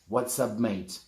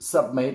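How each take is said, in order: First: The first words are said in full, what's up. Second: The first word is cut down to sup. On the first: "It means what's up mate" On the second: "another way you can say it, which is sup"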